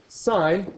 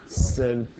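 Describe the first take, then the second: First: Sine said with a long i, like sign. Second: Sin said with a short i; wrong pronunciation. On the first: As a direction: sine rhymes with line. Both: Shown as a demonstration. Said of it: "the I is long".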